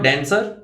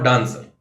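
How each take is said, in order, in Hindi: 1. यह American accent में बोला गया है। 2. यह ब्रिटिश एक्सेंट में बोला गया है। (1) "अमेरिकन एक्सेंट में" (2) "ब्रिटिश एक्सेंट में"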